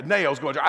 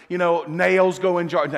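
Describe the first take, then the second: First: Said in the usual way. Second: Slow, deliberate "nails" stressed and falling; "nails" hit hard, slow and falling; emphatic slow list. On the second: Shown as a demonstration. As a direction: lean on "nails", drag it out.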